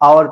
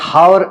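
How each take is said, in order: First: The word begins directly with a vowel sound. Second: The word begins with an audible h sound. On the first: The speaker calls it right. "आवर pronounce किया जाता है" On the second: The speaker calls it wrong. "ये हावर pronounce नहीं किया जाता है"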